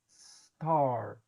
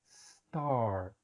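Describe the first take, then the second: First: The word starts directly with the s sound. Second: The same.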